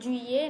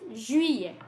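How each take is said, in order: First: It begins with a hard English-style j sound. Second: It begins with a soft French-style j sound. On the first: The speaker calls it wrong. "not a J, juillet, no, not like that" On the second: The speaker calls it right. "It's juillet"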